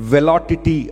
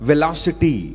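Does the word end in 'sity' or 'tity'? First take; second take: tity; sity. First: The ending is said with a t sound. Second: The ending is said with an s sound. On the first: The speaker calls it wrong. "అతనికి ఆ సి పలకడం రావట్లేదు" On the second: The speaker calls it right. "వెలాసిటీ అని నేను అనమంటే"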